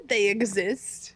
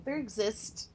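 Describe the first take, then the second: First: THEY said clearly, slow and drawn out; slow, insistent THEY with no R; corrective emphasis on THEY. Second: THEY slurred into "there exist"; softly misspoken THEY, coming out as "there". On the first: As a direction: correct them with a clean, stretched "THEY exist". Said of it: "I said they exist". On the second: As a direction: slip an R onto THEY, sounding like "there". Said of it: "English major just said, "There exist". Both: Real, not acted.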